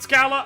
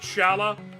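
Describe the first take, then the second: First: The name begins with an 'sk' sound. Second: The name begins with an 'sh' sound. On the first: "Do you pronounce it Scala?" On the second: "I pronounce it Shala"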